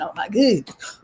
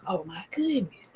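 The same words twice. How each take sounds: First: Said in the usual way. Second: Breathless hushed whisper. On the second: Real, not acted. Narrator hushing the repeat to viewers, in a whisper. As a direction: breathe it out in awe.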